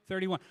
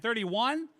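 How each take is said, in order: First: Said in the usual way. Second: THIRTY-ONE as a high, rising question; loud, rising THIRTY-ONE?. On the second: Real, not acted. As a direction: ask THIRTY-ONE in surprise, pitch climbing. Repeats a number as a question.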